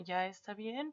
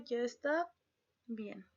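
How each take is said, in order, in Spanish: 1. La voz sube al final como pregunta. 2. La voz baja al final como afirmación.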